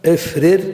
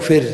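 First: The two identical consonants are pronounced separately. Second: The two identical consonants are merged into one.

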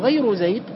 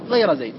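First: The word ghayr ends with a u vowel. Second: The word ghayr ends with an a vowel. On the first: The word takes the same case as the noun before it. "أتبعتها لما قبلها" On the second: The word is marked as the excepted item. "أو نصبتها على الاستثناء"

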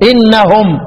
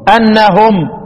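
First: The opening hamza is said with an 'i' vowel. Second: The opening hamza is said with an 'a' vowel. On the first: A new sentence starts after a complete stop. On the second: The sentence continues as the reason for the reward.

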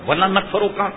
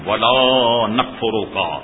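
First: The vowel of 'la' is cut short. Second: The vowel of 'la' is held long. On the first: I will certainly be ungrateful too. The speaker calls it wrong. "شکر بھی ادا کروں گا اور کفر بھی ضرور کروں گا" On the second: I will never be ungrateful. The speaker calls it right. "اور اس کو لمبا کیجیے"

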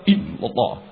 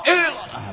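First: The voice is drawn inward and held in. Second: The voice is released and projected outward. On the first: The remembrance is directed into the heart. The speaker calls it right. "Justru zikir ke dalam" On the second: The remembrance is let go away from the heart. The speaker calls it wrong. "Kalau zikir yang lepas keluar begini"

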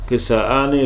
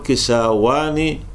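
First: A glottal stop comes before the ending. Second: A w sound comes before the ending. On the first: The hamza is kept unchanged. "الوجه الأول أن تبقى الهمزة ثابتة ما تتغير" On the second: The hamza is returned to its original letter. "يرد الهمزة إلى أصلها"

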